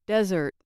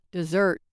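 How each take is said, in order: First: Desert as a noun, DEZ-ert; first-syllable stress. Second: Dessert sounded as the verb, de-ZERT; weak start on "dessert", stressed ending; second-syllable stress. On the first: Teacher showing the noun form, first-syllable stress. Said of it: "With stress on the first syllable". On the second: Teacher showing the verb form, second-syllable stress. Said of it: "on the second syllable, they act as verbs". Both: Shown as a demonstration.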